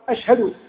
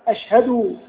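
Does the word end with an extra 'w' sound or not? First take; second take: no extra; extra w. First: No extra w sound follows the final d. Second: An extra w sound follows the final d. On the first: The speaker calls it right. "بدون هذه الواو" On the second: The speaker calls it wrong. "بزيادة واو بعد الدال"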